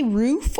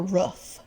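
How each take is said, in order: First: "roof" with a long oo as in food; long-vowel roof. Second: "roof" with a short oo as in book; short-vowel roof. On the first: Asking viewers which they say, "roof" with a long oo. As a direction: stretch the oo of "roof" like in moon. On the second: Asking viewers which they say, "roof" with a short oo. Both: Shown as a demonstration. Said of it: "Do you say roof or roof?".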